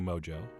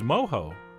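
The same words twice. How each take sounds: First: The middle consonant sounds like an English j. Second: The middle consonant sounds like an h. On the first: This is the cooler-sounding everyday way. "it really does sound so much cooler" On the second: This is the accepted way to say it. "So that's how I will be pronouncing it, but only for this video"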